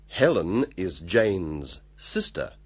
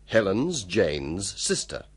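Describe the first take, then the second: First: It is said slowly and carefully. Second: It is said fast, conversationally.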